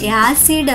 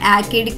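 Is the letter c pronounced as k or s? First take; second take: s; k. First: The c is pronounced as an s sound. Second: The c is pronounced as a k sound. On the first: The speaker calls it right. "పదం యొక్క ఉచ్చారణ యాసిడ్ అవుతుంది" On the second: The speaker calls it wrong. "యాకిడ్ కాదు"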